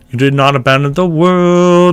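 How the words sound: The phrase is broken into choppy separate pieces. The speaker calls it wrong. "That's way too choppy nasty"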